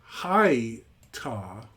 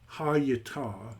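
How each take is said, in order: First: The first syllable is closed by a consonant. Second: The first syllable is open, with a vowel after it. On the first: "why not read this first as a closed syllable?" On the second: "Why read it as open"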